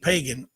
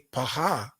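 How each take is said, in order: First: The middle consonant is a hard g sound. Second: The middle consonant is a breathy h sound. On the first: The speaker calls it wrong. "even though they said pagan, it wasn't even pagan" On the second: The speaker calls it right. "to speak it properly is to say paha"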